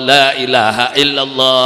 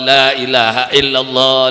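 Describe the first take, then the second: No difference in how they are said.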